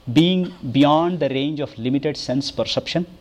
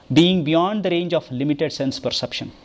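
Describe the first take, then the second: No difference in how they are said.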